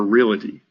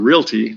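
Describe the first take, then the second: First: It is said with an extra middle syllable. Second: It is said with no extra middle syllable. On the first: The speaker calls it wrong. "that would be reality" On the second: The speaker calls it right. "it's a"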